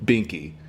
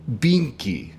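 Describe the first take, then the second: First: "binky" lower in the contrasting take; binky said another way. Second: "binky" in the first accent take; binky said one way. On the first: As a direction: say "binky" the second way. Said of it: "as opposed to binky". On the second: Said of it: "so it would be binky as opposed to". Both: Shown as a demonstration.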